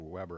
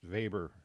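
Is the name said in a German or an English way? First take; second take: English; German. First: The name is said with English pronunciation. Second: The name is said with German pronunciation. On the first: The speaker calls it wrong. "or Weber or something like that" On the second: The speaker calls it right. "He's a German sociologist. That's why it's pr- pronounced Weber"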